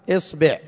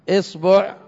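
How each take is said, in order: First: The vowel after b is i. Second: The vowel after b is a. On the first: "ومكسورة" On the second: "والباء كذلك جاءت مفتوحة"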